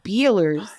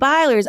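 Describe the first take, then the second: First: The first vowel sounds like 'ee'. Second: The first vowel sounds like 'eye'. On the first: This is how the speaker used to say the name. "I used to pronounce it" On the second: This is how the other person says the name. "You say"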